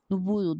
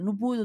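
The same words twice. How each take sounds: First: The phrase is said slowly and calmly. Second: The phrase is said quickly and hurriedly.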